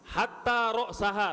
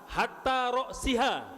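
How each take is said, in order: First: The vowel before the final syllable is a. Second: The vowel before the final syllable is i. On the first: "satu fathah juga" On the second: "dibaca kasroh"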